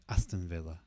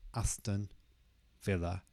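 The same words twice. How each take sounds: First: The two words run together as one. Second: The two words are said separately. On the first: The speaker calls it right. "the two words are kind of connected to each other" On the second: The speaker calls it wrong. "So it's not Aston Villa"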